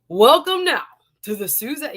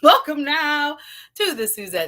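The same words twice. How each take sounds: First: It is said in an ordinary speaking voice. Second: It is said in a showy announcer voice.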